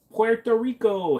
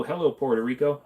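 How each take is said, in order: First: Drawn-out excited greeting. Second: Said in the usual way. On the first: Acted. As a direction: stretch Puerto Rico high and slow like a hype announcer. Greeting viewer from Puerto Rico.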